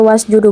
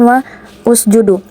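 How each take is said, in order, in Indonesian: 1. Kata-kata menyambung tanpa vokal penghubung. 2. Vokal u tambahan diucapkan sebelum sjudu. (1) "maka dia dibaca wasjudu"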